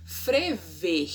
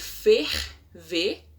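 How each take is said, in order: First: "frever", with the r moved after the f; colloquial frever. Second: Said in the usual way. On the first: Shown as a demonstration. Teacher showing the swapped "frever". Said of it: "ao invés de dizer ferver". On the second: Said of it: "ao invés de dizer".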